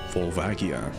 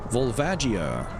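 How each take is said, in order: First: The name is said with a deliberately altered pronunciation. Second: The name is said with its standard pronunciation. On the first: The speaker calls it wrong. "I elect to purposefully mis mispronounce it" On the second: The speaker calls it right. "According to the Japanese pronunciation, this is actually called"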